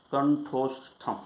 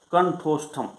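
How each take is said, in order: First: कंठोष्ठम said slowly, each syllable drawn out; slow recitation. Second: Said in the usual way. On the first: Shown as a demonstration. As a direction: repeat the term slowly for the class to follow.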